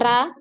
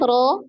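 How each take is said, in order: First: The vowel after r sounds like a. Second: The vowel after r sounds like o. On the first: The speaker calls it wrong. "jangan ra" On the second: The speaker calls it right. "ro ya"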